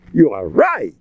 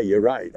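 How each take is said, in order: First: With relish. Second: Said in the usual way. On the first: Shown as a demonstration. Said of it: "I say it with a geschmack". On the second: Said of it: "I don't just say".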